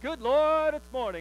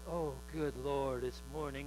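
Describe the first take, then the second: First: It is said with joyful excitement. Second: It is said with a weary groan.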